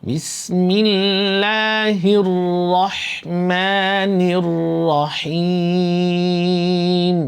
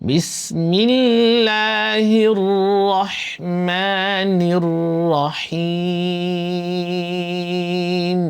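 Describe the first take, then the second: The two takes are said the same way.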